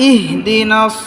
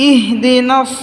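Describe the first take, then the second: Both takes have the same delivery.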